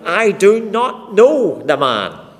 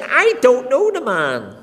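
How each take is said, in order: First: Loud, slow, forceful denial; emphatic oath. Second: Loud, higher, slowed oath; cursing denial. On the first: Peter swearing to the bystanders he doesn't know Jesus, loud and slow. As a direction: hammer out each word, swearing he's innocent. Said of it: "he denies with an oath". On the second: Peter cursing and swearing to the crowd, loud and slow. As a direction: spit it out as a furious vow. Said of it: "He began to curse and swear". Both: Acted.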